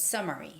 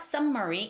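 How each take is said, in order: First: The m sound is single and short. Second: The m sound is doubled across syllables. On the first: The speaker calls it right. "it's summary" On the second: The speaker calls it wrong. "It's not summary"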